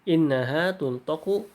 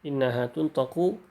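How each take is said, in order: No difference in how they are said.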